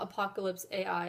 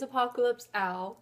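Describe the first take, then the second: First: The last word is spelled out as two letters. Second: The last word is said as one short name. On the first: The speaker calls it wrong. "I mispronounced the name of it. It is not Apocalypse A I" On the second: The speaker calls it right. "It is Apocalypse Al, as in A L"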